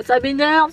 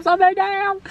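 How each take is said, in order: First: Said in the usual way. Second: A higher, whiny "ça m'énerve"; playful, exasperated complaint. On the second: Real, not acted. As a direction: moan "ça m'énerve" in mock exasperation.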